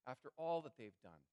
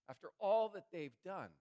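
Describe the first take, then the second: First: Said in the usual way. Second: "after all that they've done" lifted higher and pushed, "all" hit hard; emphatic repeat. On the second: Shown as a demonstration. Preacher stressing to congregation what the brothers did, emphatic. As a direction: drive the repeat home with force.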